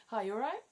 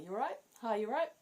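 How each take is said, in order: First: High, lilting "Hi, you all right?"; chirpy rising British greeting; cheery greeting. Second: Bright, high "You all right?" with a lift at the end; breezy British hello; sing-song casual greeting; cheery greeting. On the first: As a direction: toss it off as a casual hello. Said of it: "But you say". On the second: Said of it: "You say". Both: Shown as a demonstration.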